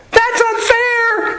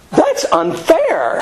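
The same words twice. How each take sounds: First: Squealed very high and slow, a comic tantrum; mock British shriek. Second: Much higher, slow, put-on whiny voice; mock British whine. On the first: Teacher mocking British soldiers ambushed from the trees, shrieking high and whiny. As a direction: shriek it like an outraged redcoat. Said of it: "and they'd go". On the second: Teacher mocking the British generals, in a high whiny put-on voice. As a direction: drawl it out like a prissy redcoat. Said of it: "which was like".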